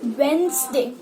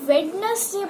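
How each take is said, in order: First: The middle 'd' is left out. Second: The middle 'd' is clearly pronounced. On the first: The speaker calls it right. "डी silent होता है" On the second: The speaker calls it wrong. "वो भी वेडनेसडे बोलती है"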